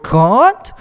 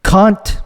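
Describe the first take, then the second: First: Put-on Australian accent. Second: Said in the usual way. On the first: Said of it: "their voice raises at the end of every word".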